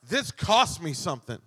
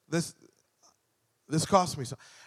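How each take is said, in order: First: It is said with a sassy, showy attitude. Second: It is said plainly and sincerely. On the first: The sacrifice is worn as a show of self-importance. The speaker calls it wrong. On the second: Giving this up is a real, meaningful sacrifice. The speaker calls it right.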